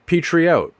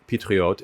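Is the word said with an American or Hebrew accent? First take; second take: American; Hebrew. First: It is said with a thick American accent. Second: It is said with a native Hebrew pronunciation. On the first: "pronounce it incorrectly with a thick American accent" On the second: "take a word like patriote"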